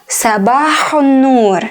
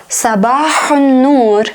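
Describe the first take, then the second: Both takes have the same delivery.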